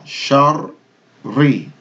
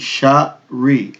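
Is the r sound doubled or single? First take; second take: doubled; single. First: The r is held and doubled. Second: The r is short and single. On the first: The speaker calls it right. "Shar, stop on the ra" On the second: The speaker calls it wrong. "this is not going to be"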